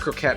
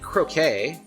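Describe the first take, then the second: First: The word ends with an 'et' sound. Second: The word ends with an 'ay' sound. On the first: The speaker calls it right. "I think it's croquette" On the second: The speaker calls it wrong. "I think it's croquette, not croquet. I think I messed up"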